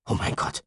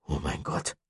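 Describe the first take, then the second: First: Breathless, voiceless murmur of shock; an unvoiced "Oh mein Gott" in horror. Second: Softer, hushed repeat of "Oh mein Gott"; a hushed, voiced "Oh mein Gott", still in shock; repeated in awe. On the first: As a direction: mutter it under your breath, stunned. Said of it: "murmelte Chester". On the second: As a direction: say it again, quietly stunned. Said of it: "wiederholte Chester".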